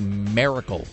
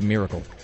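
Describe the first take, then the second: First: The word is said in a Utah accent. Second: The word is said in a standard accent. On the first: "when Utahns say miracle" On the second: "as opposed to miracle"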